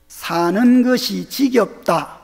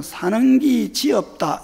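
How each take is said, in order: First: Said in the usual way. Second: Slow Gyeongsang dialect version. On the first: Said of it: "이게 이제 표준어고". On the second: Shown as a demonstration. Pastor demonstrating dialect to congregation, Gyeongsang accent. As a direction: say it the Gyeongsang way, drawn out. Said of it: "그냥 경상도 말로는".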